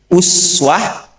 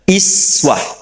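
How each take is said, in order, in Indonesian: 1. Vokal pertama adalah bunyi u bulat. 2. Vokal pertama adalah bunyi i depan. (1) "Satu, uswah" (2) "Yang kedua, iswah"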